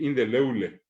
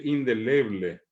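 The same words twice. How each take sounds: First: "indeleble" as indeleule, B turned into U; local mispronunciation. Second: "indeleble" with a full B before L; correct pronunciation. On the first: Retold or imitated. Teacher showing what people here say, imitated. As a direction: say in-de-LEU-le. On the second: Shown as a demonstration. Teacher giving the standard word, careful and correct. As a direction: say in-de-LE-ble. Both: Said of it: "acá va a decir indeleble".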